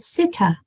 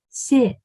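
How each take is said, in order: First: An extra uh vowel follows the final t. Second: The word ends cleanly on the t sound. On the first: The speaker calls it wrong. "The sound for T is not ta" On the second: The speaker calls it right. "So the sound for T is t"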